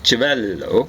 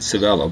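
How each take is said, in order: First: The name is said in an Italian style. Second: The name is said in an English style. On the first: The speaker calls it right. "it should be something like" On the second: The speaker calls it wrong. "they might mispronounce it"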